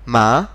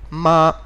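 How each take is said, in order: First: The pitch rises across the syllable. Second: The pitch stays level throughout the syllable. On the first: "the tone needs to rise, as if we were asking a question" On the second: "it is a very flat tone"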